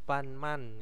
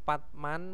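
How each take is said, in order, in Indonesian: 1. Bunyi nasal n ada sebelum m. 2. Konsonan hambat ada sebelum m.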